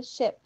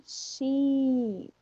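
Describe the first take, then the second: First: SHIP with a quick, lax I, near EH; short I. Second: SHEEP with a long, held EE. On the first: Teacher showing the short English I, ship said short. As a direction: keep the vowel in ship short. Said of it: "um som de um izinho curto". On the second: Teacher showing a long English I, sheep drawn out. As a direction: stretch the vowel in sheep right out. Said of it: "Aqui nós temos um I longo". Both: Shown as a demonstration.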